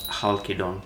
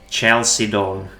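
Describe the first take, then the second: First: The name is pronounced the Greek way. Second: The name is pronounced the common Western way. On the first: The speaker calls it right. "in Greek the proper name is Chalkidon" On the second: The speaker calls it wrong. "as many Westerners pronounce it"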